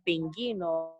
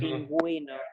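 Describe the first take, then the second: First: The u after the g is silent. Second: The u after the g is pronounced. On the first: The speaker calls it wrong. "we don't say pinguino" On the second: The speaker calls it right. "but pinguino"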